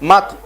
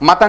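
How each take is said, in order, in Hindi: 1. t और n के बीच कोई स्वर सुनाई नहीं देता। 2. t और n के बीच एक स्वर सुनाई देता है। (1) "तापे जज्म" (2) "मतन नहीं"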